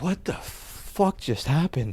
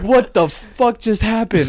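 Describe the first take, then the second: First: Much softer, slow, stunned murmur; dazed. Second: Raised, drawn-out, high-pitched disbelief; shocked. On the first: Waking up again, dazed soft disbelief. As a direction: drag it out, half-awake and stunned. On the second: Waking from the nightmare, loud startled disbelief. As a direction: blurt it out, slow and stunned. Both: Retold or imitated.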